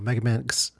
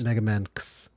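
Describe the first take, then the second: First: The X is said as the letter name. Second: The X is a ks sound joined to Man.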